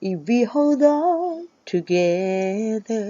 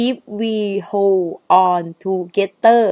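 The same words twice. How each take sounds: First: Slow, softly held singing, "hold on" linked as "hol-don"; sung with linked words. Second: "hold on" said as two separate spoken words, no linking. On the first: Singing teacher demonstrating the song line to students, sung slowly with linked words. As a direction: sing the lyric a cappella, long drawn notes. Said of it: "เวลาที่เราร้องภาษาอังกฤษ เราซิงค์คำด้วยกัน". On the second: Singing teacher showing students the spoken form of the lyric, spoken word by word. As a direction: say "if we hold on together" word by word, unsung. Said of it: "ถ้าเป็นการพูด".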